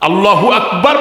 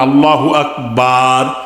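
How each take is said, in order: First: The vowels are kept at normal short length. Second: A vowel is drawn out noticeably long. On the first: God is the greatest. The speaker calls it right. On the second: God is a drum. The speaker calls it wrong.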